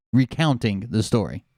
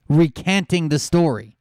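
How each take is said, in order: First: "Recounting" with a clear "count", fixing the slip; "Recounting" as the corrected word, dropped down; self-correction. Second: Says "recanting" instead of recounting, an unnoticed misword; "recanting" with a clear "can" in the middle; "recanting" said as the wrong word; slip of the tongue. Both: Real, not acted.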